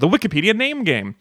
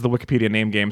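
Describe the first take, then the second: First: It is said emphatically, with more conviction. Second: It is said flatly, without much conviction. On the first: The speaker calls it right. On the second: The speaker calls it wrong.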